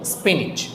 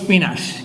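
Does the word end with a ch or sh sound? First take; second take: ch; sh. First: The word ends with a ch sound. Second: The word ends with an sh sound. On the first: The speaker calls it right. "এটা উচ্চারণ হচ্ছে স্পিনিচ, বর্গীয় জ" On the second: The speaker calls it wrong. "এটাকে বলি স্পিনাশ"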